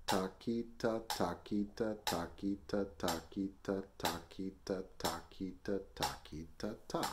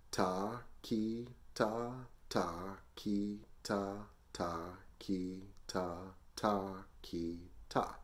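First: Brisk, even triplet syllables locked to the click; counting at tempo. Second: Slow, evenly spaced syllables in threes; slow group counting. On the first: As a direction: rattle off threes in strict metronome time. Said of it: "Try that with the metronome". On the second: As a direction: count slowly so learners can join in. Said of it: "Let's do it slow together". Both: Shown as a demonstration.

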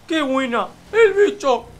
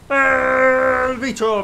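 First: Short, high, loud yell of "¡El bicho!"; celebratory shout. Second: "¡El bicho!" stretched very slow and loud; drawn-out celebratory shout. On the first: Streamer celebrating a great move to his viewers, high loud cheer. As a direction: bark "¡El bicho!" fast and high like a goal cheer. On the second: Streamer celebrating a great move to his viewers, slow stretched loud chant. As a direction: hold out "¡El bicho!" like a stadium chant. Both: Acted.

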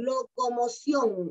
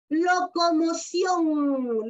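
First: Said in the usual way. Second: Locomoción spoken very slowly, syllable by syllable, lo-co-mo-ción; slow syllable demo. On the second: Shown as a demonstration. Teacher showing a diphthong to her children, very slowly by syllable. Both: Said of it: "igual, miren".

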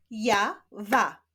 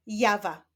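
First: "Ja, wa" with a clear gap between syllables. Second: Said in the usual way. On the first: Shown as a demonstration. Teacher showing pupils syllables, "Ja, wa" split apart. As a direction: sound out "Ja", stop, then "wa". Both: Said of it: "łączenia ich w wyrazy".

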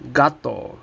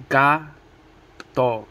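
First: Said in the usual way. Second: Gato broken into GA, long pause, TO; split into syllables. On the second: Shown as a demonstration. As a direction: say gato one syllable at a time. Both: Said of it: "Two syllables, each one".

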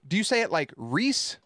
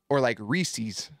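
First: Reese said short with no s; plain "Reese", single clipped word; Reese, without the -es ending. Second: Reese's said slowly with the s; "Reese's", drawn out with a clear -es ending; Reese's spoken slowly, the s stressed. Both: Shown as a demonstration.

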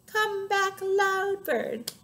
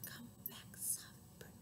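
First: High singsong call; loud. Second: Barely audible whisper; soft. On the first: Calling the loud bird back, high loud chant. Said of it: "the other named Loud". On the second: Calling the soft bird back, tiny whisper. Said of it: "One named Soft". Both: Shown as a demonstration.

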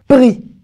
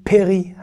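First: "pri" as one syllable; correct pri. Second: "péri" in two syllables, pé-ri; common mispronunciation péri. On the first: Teacher correcting péri, one-syllable pri. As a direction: join p and r directly in "pri", no é. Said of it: "ce mot se prononce pri". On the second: Teacher quoting the blessing on fruit, mispronounced péri. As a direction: slip an é between p and r in "péri". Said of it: "certains vont dire péri". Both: Shown as a demonstration.

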